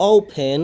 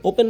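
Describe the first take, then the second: First: Louder, careful ওপেন with a puff on p; correct pronunciation. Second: Everyday ওপেন, no puff on the p; wrong pronunciation. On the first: Teacher corrects students' usual form, correct pronunciation. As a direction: say ওপেন as "ophen", aspirated p. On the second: Teacher warns it is not so, wrong pronunciation. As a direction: say ওপেন with an unaspirated p. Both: Shown as a demonstration. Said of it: "ওপেন না কিন্তু".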